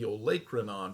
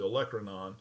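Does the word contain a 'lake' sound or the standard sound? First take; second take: lake sound; standard. First: It is said with a 'lake' sound inside. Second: It is said with its usual standard pronunciation. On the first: The speaker calls it wrong. "he'd mispronounce it" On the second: The speaker calls it right. "It's called the olecranon"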